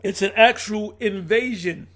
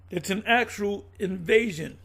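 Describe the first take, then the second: First: "actual" drawn out, slow and louder; stress on actual. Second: Said in the usual way. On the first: Real, not acted. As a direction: lean hard on the word "actual", slowly.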